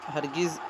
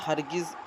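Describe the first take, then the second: The two takes are said the same way.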